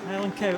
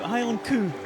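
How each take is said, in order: First: Cow is said with the standard 'ow' vowel. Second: Cow is said with a Scottish 'oo' vowel.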